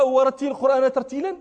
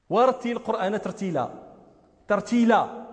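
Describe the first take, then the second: First: ورتل القرآن ترتيلا read fast without tarteel; rushed careless reading. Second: ترتيلا with a heavy wrong lam; ورتل القرآن ترتيلا with a distorted lam; mock bad lam in ترتيلا. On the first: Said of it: "على غير وجه الترتيل". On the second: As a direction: mispronounce the lam in ترتيلا on purpose. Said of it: "ايش هذه اللام هذه". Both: Shown as a demonstration.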